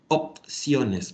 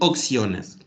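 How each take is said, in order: First: A clear P sound comes before -ciones. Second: A K sound replaces the P before -ciones. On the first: The speaker calls it right. "Como nos cuesta pronunciar esa P ahí" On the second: The speaker calls it wrong. "algunos dicen opciones, como si fuera con doce"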